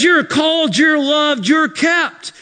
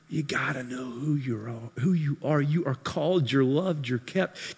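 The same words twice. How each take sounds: First: Loud, high proclamation of Jude's words; shouted declaration. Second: Soft reassurance. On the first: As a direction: shout it out like a promise. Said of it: "Jude says". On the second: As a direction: comfort them gently. Tender reassurance. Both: Acted.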